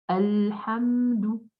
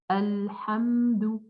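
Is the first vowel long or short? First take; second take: short; short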